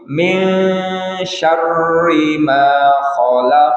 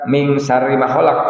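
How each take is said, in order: First: The nasal hum is held long, unhurried. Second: The nasal hum is rushed and cut short. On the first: The speaker calls it right. "Upami dengung, ... tapi" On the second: The speaker calls it wrong.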